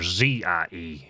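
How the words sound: The letter Z is said as zee.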